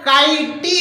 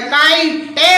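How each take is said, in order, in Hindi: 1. अंतिम t के बाद एक ee ध्वनि जोड़ी जाती है। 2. अंतिम t के बाद एक eh ध्वनि जोड़ी जाती है। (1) "यदि वावेल ई का उच्चारण होता तो क्या हो जाता? काइटी होता" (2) "या काइटे होता"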